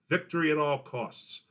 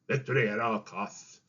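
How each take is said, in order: First: It is spoken clearly in an American Southern accent. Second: It is spoken in a British accent with a lisp. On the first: "I spoke them in a nice, clear, New Orleans style of accent" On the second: "Churchill, with his lisp, would have sounded like this"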